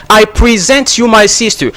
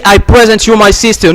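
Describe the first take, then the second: First: "present" as prih-ZENT, stress on the second syllable; correct verb stress. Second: "present" as PREH-zent, stress on the first syllable, a bit faster; wrong noun stress. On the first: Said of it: "Don't say". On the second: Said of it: "No, it's not correct". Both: Shown as a demonstration.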